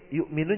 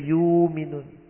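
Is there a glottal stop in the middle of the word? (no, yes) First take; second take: yes; no. First: A glottal stop is heard after the first syllable. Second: The glottal stop is replaced by a long vowel. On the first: This is the standard reading. "kalau baca qiraat waras" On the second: This is the reading that replaces the glottal stop. "ibdalul hamzah alifan"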